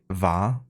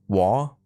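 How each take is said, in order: First: The vowel is an open 'ah' sound. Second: The vowel sounds almost like an 'oh'. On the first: "when I say war" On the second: "they might say war"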